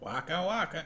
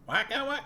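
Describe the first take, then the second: First: A nasal, lower-pitched Fozzie voice. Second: A higher-pitched Fozzie voice.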